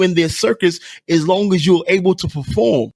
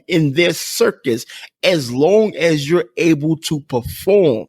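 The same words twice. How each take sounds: First: It is spoken at a normal conversational pace. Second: It is spoken slowly and deliberately.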